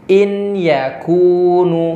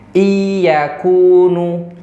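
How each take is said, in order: First: The n is pronounced clearly and separately. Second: The n merges into y without being held. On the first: "jangan dibaca jelas" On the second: "masuk tapi nggak ditahan"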